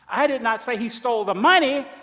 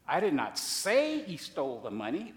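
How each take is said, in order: First: The stress is on the word money. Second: The stress is on the word say.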